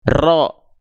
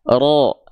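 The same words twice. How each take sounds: First: The r is trilled long and heavily. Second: The r is trilled briefly and lightly. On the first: The speaker calls it wrong. "getarannya berlebihan ... salah" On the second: The speaker calls it right. "Getarannya nggak berlebihan"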